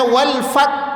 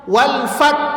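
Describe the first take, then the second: First: The final h sound is dropped. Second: The same.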